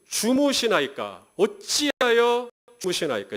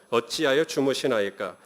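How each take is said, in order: First: Slow, drawn-out questioning, stressing 어찌하여; slow emphatic plea. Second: Drawn-out plea, mildly complaining; slow plaintive reading. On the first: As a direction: lean on 어찌하여 slowly, a touch higher. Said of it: "하나님이 지금 졸고 있다는 얘기죠". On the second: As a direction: plead slowly, asking why he sleeps. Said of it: "이렇게 하나님께 따집니다". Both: Shown as a demonstration.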